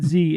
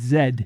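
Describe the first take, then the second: First: The letter is said the American way, 'zee'. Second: The letter is said the New Zealand way, 'zed'.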